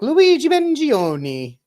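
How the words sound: The name has an exaggerated, overdone Italian pronunciation. The speaker calls it wrong. "overpronouncing different syllables in an attempt to try and sound sophisticated"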